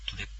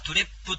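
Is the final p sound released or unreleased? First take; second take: unreleased; released. First: The final p only closes the lips. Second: The final p is released with a vowel. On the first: The speaker calls it right. "口を閉じるだけみたいな" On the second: The speaker calls it wrong. "そういう発音でなく"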